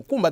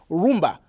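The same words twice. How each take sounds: First: Mukumba with the first syllable mu; original Congolese mukumba. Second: Mukumba shortened to rumba; Spanish-changed rumba. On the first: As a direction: say mukumba, the original name before rumba. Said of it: "instead of saying". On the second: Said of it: "they say rumba". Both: Shown as a demonstration.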